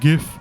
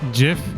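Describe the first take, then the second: First: The word begins with a hard G sound. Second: The word begins with a soft J sound. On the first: "the word gift, you would say it like gif" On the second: "I pronounce it as Jif ... kind of like the peanut butter"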